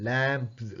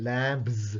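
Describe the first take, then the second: The two takes are said the same way.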